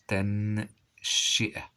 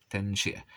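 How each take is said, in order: First: تنشئة slowly split into stretched syllables; slow teacher's dictation; drawn-out dictation. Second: Said in the usual way. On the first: Shown as a demonstration. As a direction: sound it out part by part. Teacher sounds word out, then repeats.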